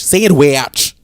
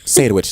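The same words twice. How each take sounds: First: "Sandwich" high and loud as say-and-wee-atch; mocking pronunciation. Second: Said in the usual way. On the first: Host mimicking co-host, "Sandwich" loudly drawled apart. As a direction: overstretch both syllables of "Sandwich". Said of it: "Can you say the word?".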